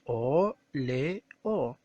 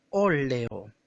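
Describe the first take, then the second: First: "óleo" pulled apart into o, le, o; syllable by syllable. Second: Said in the usual way. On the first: Shown as a demonstration. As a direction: sound out "o, le, o" as three separate beats. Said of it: "separamos en sílabas". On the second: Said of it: "Si nosotros separamos en sílabas".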